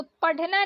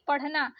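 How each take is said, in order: First: पढ़ना with stopped ढ; wrong hard ढ. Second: पढ़ना with aspirated flap ढ़; correct flapped ढ़. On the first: Teacher showing learners the mistake, hard पढ़ना. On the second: Teacher correcting learners, flapped पढ़ना. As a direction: flick a breathed ढ़ in पढ़ना. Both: Shown as a demonstration. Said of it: "नहीं".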